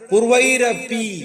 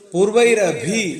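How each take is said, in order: First: The last syllable begins with a plain 'p'. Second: The last syllable begins with a breathy 'bh'. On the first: The speaker calls it right. "ഇവിടെ പൂർവൈരപി എന്ന് തന്നെയാണ്" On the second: The speaker calls it wrong. "ചിലവർ ചൊല്ലുന്നത് പൂർവൈരഭി എന്ന് പറയും. വരരുത്"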